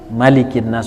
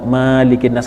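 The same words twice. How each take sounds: First: The first vowel of Malikin is said short. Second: The first vowel of Malikin is drawn out long. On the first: The speaker calls it right. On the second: The speaker calls it wrong.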